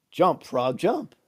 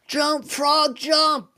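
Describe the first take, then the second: First: Said in the usual way. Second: A class shouting at the frog to jump; class screaming. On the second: Retold or imitated. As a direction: yell it like a roomful of kids. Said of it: "The whole class is screaming".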